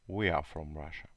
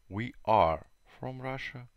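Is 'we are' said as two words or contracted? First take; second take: contracted; two words. First: We and are are joined into one contracted syllable. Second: We and are are said as two full words. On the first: "Short form – короткая форма" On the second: "Long form – это длинная форма"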